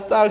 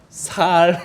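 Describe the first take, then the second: First: The first consonant is a tense s sound. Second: The first consonant is a plain s sound. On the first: The speaker calls it right. "쌀 해봐 쌀 쌀 해보라" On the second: The speaker calls it wrong. "살 살 아무리 노력해도 어, 살로 발음을 못해요"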